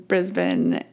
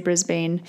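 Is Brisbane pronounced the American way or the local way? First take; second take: local; American. First: Brisbane is pronounced the local way. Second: Brisbane is pronounced the American way. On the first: The speaker calls it right. "I'm going to say it right" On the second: The speaker calls it wrong. "I think Americans say Brisbane"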